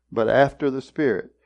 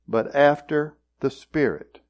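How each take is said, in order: First: "after" leaned on with a falling close; "but after the Spirit" with "after" weighted; stress on after. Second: Said in the usual way. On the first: Shown as a demonstration. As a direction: land on "after" for the contrast. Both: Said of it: "notice the contrast".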